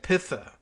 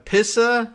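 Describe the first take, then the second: First: The middle consonant sounds like th. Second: The middle consonant sounds like ts.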